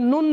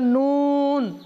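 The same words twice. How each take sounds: First: The vowel is short and not stretched. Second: The vowel is stretched out long. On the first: The speaker calls it wrong. "এটা নুন না" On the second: The speaker calls it right. "এটা নুন"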